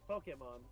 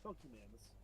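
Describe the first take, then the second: First: The word ends with a 'mon' sound. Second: The word ends with a 'mans' sound. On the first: The speaker calls it right. "it's like Pokemon" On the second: The speaker calls it wrong. "that's what I said, Pokemans"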